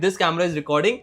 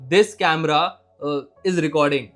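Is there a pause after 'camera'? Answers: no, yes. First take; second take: no; yes. First: The phrase flows with no pause after 'camera'. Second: There is a hesitation pause after 'camera'. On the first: The speaker calls it right. "सही जगह पे pause देना" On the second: The speaker calls it wrong. "तो मैंने गलत जगह पे pause ले लिया।"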